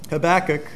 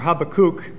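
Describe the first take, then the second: First: The name is said in a plain English way. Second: The name is said in an Israeli Hebrew way.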